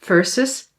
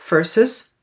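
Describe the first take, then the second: The two takes are said the same way.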